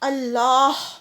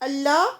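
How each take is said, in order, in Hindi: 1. शब्द के अंत में साफ़ ह की आवाज़ सुनाई देती है। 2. शब्द के अंत में कोई ह की आवाज़ नहीं होती। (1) "लास्ट में हा की साउंड आनी चाहिए" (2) "बिना हा के जो अल्लाह होता है उसका मतलब होता है के नहीं"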